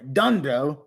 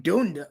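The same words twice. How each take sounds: First: Dundo said American-style, "DUN-doh"; American pronunciation. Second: Said in the usual way. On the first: Shown as a demonstration. Streamer playing a patriot, Dundo in an American way. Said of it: "say it in an American way". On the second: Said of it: "let me say it".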